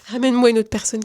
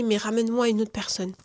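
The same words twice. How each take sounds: First: Said again through a laugh; retelling her prayer to the viewers, laughing. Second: Said in the usual way. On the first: Real, not acted. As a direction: laugh as you repeat the prayer.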